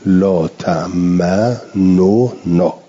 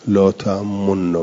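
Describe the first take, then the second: First: The two n sounds are pronounced separately. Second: The two n sounds are merged into one. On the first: "بالاظهار" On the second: "بل اشعار و به زمت و ادغام من غیر اشمامن"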